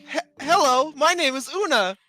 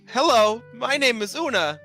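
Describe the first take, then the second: First: The voice sounds more feminine. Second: The voice sounds less feminine. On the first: The speaker calls it right. "can can you have like a more feminine voice?" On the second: The speaker calls it wrong. "How did I do?"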